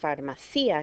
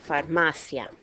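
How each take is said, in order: First: The stress falls on the syllable ci. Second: The stress falls on the syllable ma. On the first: The speaker calls it wrong. "it's not pronounced farmacia because there's no accent on the I" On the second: The speaker calls it right. "Second to last syllable. That's why this word is pronounced farmacia"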